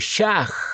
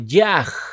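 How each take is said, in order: First: The word begins with a sh sound. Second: The word begins with a y sound. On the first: "muchos lo pronuncian como Shach" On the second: "otros lo pronuncian como Yaj"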